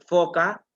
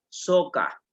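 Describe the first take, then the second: First: The word begins with an F sound. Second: The word begins with an S sound. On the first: The speaker calls it right. "en vez de decir este, foca" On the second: The speaker calls it wrong.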